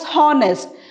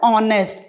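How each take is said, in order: First: The word begins with an audible h sound. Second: The word begins directly with a vowel sound. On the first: The speaker calls it wrong. "we don't pronounce it as honest" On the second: The speaker calls it right. "We pronounce it as honest. ... H is silent"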